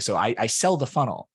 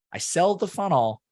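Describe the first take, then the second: First: Said in the usual way. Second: "sell" punched high and loud; emphatic repeat. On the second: Real, not acted. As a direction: repeat it, hitting "sell" much higher.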